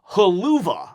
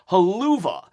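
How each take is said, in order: First: It is said as 'haluva' with a 'ha' vowel. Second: It is said as 'haluva' with a 'ha' vowel.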